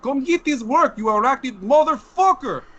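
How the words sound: It is said in a put-on Russian accent.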